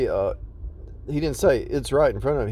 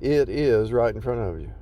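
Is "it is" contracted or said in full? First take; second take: contracted; full. First: It is contracted to "it's". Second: "It is" is said as two full words. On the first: "He didn't say it's right in front of you" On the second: "He said, it is right in front of you"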